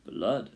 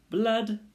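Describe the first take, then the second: First: Understated rat agreement at usual pitch; agree, without singing it out; mildly eager echo of the cry. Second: Sung, high, loud rat cry; sung, gleeful high-pitched call; singing out. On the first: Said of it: "they all agreed together". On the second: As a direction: sing the word out high. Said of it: "sang a rat". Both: A narrator's reading.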